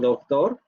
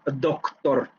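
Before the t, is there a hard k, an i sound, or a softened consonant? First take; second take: softened; hard k. First: A softened, weak consonant is heard before the t. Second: A full hard k is heard before the t. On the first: The speech is relaxed. "cuando ustedes lo pronuncian de manera relajada, decimos doctor" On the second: The speech is very careful and forced. "En una habla muy cuidada y muy forzada, podríamos decir doctor"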